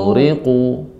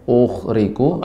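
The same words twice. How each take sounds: First: The gh sound flows smoothly and heavily. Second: The gh sound is cut off with an uh. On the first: The speaker calls it right. "suaranya mengalir" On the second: The speaker calls it wrong. "jangan ada suara uh uh ya, jangan sampai"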